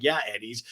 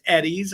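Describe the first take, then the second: First: Said in the usual way. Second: EDDIE'S lifted higher as a question; questioning echo. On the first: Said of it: "And I'm like". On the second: Retold or imitated. Friend checking the underwear brand she just heard, questioning echo. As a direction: echo EDDIE'S back with a rising, querying tune. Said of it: "And she goes".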